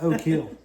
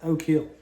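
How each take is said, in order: First: The two words run together like 'oh kill'. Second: The same.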